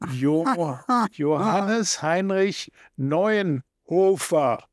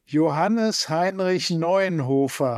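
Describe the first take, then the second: First: Parts of the name get heavy, marked emphasis. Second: The name is said with plain, even stress.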